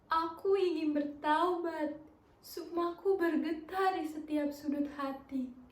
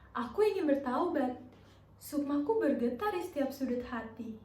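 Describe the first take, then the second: First: It is said with a sad expression. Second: It is said with a confused expression.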